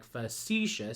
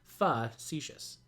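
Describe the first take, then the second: First: Facetious with its middle syllable emphasized, fa-SEE-shus; stress on middle syllable. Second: Facetious wrongly stressed up front, FA-see-shus; stress on first syllable. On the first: Teacher showing the marked emphasis, facetious stressed on its middle syllable. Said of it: "attached to the middle syllable". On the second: Teacher showing the wrong emphasis, facetious stressed on its first syllable. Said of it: "as opposed to". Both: Shown as a demonstration.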